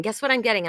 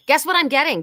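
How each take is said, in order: First: Said in the usual way. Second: Higher, louder, playful tease; excited tease. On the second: Real, not acted. Reader teasing viewers about a new book, high and loud. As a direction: dangle the news, bright and eager.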